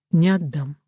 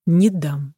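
First: Quiet resolve; firm refusal. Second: Firm but not shouted; understated insistence; louder refusal. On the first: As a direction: refuse firmly without raising the voice. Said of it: "твёрдо сказал". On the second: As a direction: refuse with a little more force. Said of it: "ещё громче сказал Петер". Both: A narrator's reading.

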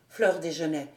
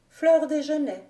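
First: Lightly voiced captain, pitched lower; murmured recognition, low and understated; a hint of the faltering officer; stammering captain. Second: Alix's higher-pitched echo of the name; lightly voiced female character, pitched up; repeating. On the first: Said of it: "balbutia le capitaine". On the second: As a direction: say it back higher, as the young woman. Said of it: "répéta-t-elle". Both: A narrator's reading.

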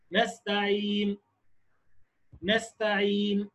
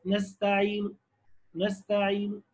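First: نستعين slow and soft, stopped dead on the n with no vowel sound; إشمام بلا صوت; ishmam, silent. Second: نستعين ending in a faint, barely voiced u, "nastaʿīnu"; روم بصوت خفي; rawm, faint vowel. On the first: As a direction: stop on نستعين with no vowel heard. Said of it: "فرجة بين الشفتين". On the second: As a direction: let a trace of u be heard after نستعين. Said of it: "محتاج سمع". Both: Shown as a demonstration.

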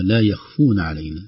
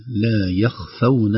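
First: يخفون said as yakhfun, the fa and waw blended into one long u; the mistaken يخفون, with no clear fatha on the fa; wrong reading of يخفون. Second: يخفون said slowly as yakhfawn, fatha on the fa and a silent waw; correct reading of يخفون. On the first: Teacher to students, showing a wrong reading of يخفون. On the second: Teacher to students, modelling the correct يخفون. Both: Shown as a demonstration. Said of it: "بفتح الفاء وسكون الواو".

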